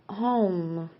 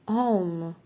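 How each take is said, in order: No difference in how they are said.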